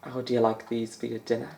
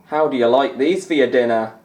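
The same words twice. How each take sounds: First: Softer, murmured Scottish commentator catchphrase; quiet McManus impression. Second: Louder, punchier Scottish commentator catchphrase; louder McManus impression. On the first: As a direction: mutter the catchphrase in a faint Scottish lilt. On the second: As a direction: belt out the catchphrase like a Scottish pundit. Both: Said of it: "as Alan McManus would say".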